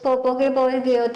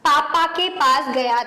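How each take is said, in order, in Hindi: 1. पहले शब्द में 'o' स्वर है। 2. पहले शब्द में एक तेज़, साफ़ 'a' स्वर है। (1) "वरना बच्चे बोलते पोपो" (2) "आ की आवाज अच्छी होनी चाहिए"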